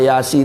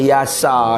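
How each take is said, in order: First: The word ends with the syllable 'si'. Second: The word ends with the syllable 'sa'. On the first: "tak boleh" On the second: "tak boleh"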